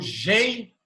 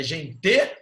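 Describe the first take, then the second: First: "gente" stressed on the first syllable, GEN-te; tônica na primeira. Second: "gente" wrongly stressed on the last syllable, gen-TE; tônica no final. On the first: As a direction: slowly punch the "gen" in "gente". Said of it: "qual é a sílaba mais forte de gente?". ("gente" com força no "gen", sílabas separadas) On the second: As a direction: slowly punch the final "te" of "gente". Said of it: "Qual é a sílaba tônica de gente?". ("gente" com força na última sílaba, gen-TÊ) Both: Shown as a demonstration.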